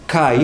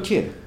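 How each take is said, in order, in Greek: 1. Το φωνήεν προφέρεται σαν δύο ήχοι, 'ai'. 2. Το φωνήεν προφέρεται σαν έναν ήχο, 'e'. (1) "«Καϊ» είναι το «και»" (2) "όχι όπως το διαβάζουμε εμείς"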